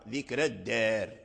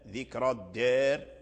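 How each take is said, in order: First: The r sound is light and thin. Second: The r sound is heavy and full. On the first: "أي قرأها بالترقيق" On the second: "هل هي بالتفخيم فنقرأها"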